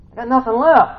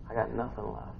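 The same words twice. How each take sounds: First: High, loud cry of exhaustion; raised, pleading shout; desperate outcry. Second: Very soft, worn-out admission; barely voiced, quiet resignation; spent and defeated. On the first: Acted. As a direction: throw it out at the end of your rope. Same words cried out. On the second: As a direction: say it with the energy drained. Voicing someone worn out.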